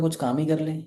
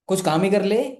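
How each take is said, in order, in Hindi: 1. यह कोमल, स्नेहपूर्ण लहजे में कहा गया है। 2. यह चिढ़े हुए, डाँटने वाले लहजे में कहा गया है। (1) "पहला" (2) "शब्द सेम थे, बोलने का तरीका अलग था, मीनिंग देखो कितना निकल के आया अलग, अपोजिट"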